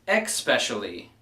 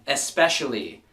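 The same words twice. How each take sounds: First: The word begins with a ks sound. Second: The word begins with a plain s sound. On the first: The speaker calls it wrong. "not E X P" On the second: The speaker calls it right. "it's E S P"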